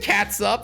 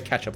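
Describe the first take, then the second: First: The word is said as catsup. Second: The word is said as ketchup. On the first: It is said funny as a joke. "I said it there as a joke" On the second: It is the everyday way to say it. "I say ketchup like a normal human being"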